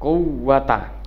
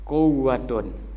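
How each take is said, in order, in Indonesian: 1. Kata itu berakhir dengan -a pendek. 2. Kata itu berakhir dengan -un. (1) "Wala pertama al-fathu fathah" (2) "yang ketiga adalah warrafu, boleh dibaca"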